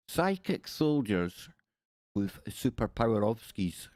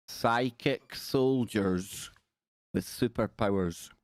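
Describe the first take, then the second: First: Slow, hammed-up Russian accent; jokey attempt at a Russian accent; mock Russian. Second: Said in the usual way. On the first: Shown as a demonstration. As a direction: fake Russian with "ovskis" tacked on. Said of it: "add an ovski to the end, it sounds kinda Russian".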